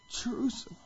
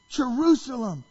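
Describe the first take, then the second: First: Voiceless, grieving whisper; weeping lament. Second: High, loud cry of grief; weeping lament. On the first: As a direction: let the name fade into a whisper. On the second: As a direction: call out in acted anguish. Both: Retold or imitated. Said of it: "falls to his knees and he weeps".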